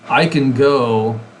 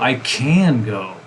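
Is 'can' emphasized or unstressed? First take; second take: unstressed; emphasized. First: The word 'can' is weak and unstressed. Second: The word 'can' is strongly emphasized.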